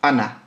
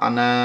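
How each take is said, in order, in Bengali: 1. শেষ স্বরধ্বনিটি হ্রস্ব রাখা হয়। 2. শেষ স্বরধ্বনিটি দীর্ঘ করে টানা হয়। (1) "আমরা লম্বা করি না" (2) "আনা বলি না"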